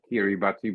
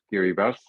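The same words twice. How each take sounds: First: The name is read exactly as it is spelled. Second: The name is said differently from its spelling. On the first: "You write" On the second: "but you pronounce it"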